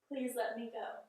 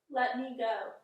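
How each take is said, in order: First: It is said as a polite request. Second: It is said as a firm command.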